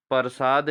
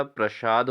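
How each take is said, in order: First: प्रसाद said as "par-saad"; wrong pronunciation. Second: प्रसाद with joined "pra" onset; correct pronunciation. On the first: Teacher shows students the error, प्रसाद as "parsaad". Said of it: "नहीं होता". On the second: Teacher corrects students, प्रसाद starting on a tight "pra". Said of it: "होता है". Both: Shown as a demonstration.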